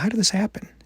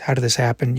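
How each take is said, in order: First: It sounds gentle and curious. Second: It sounds hurt, angry and contemptuous.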